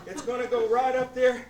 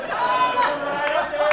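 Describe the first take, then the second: First: Said in the usual way. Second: Slow, loud, stretched out; drawn out slowly. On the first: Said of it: "first take, plain". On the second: Shown as a demonstration. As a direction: stretch each word out slowly. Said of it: "slow drawn out repeat".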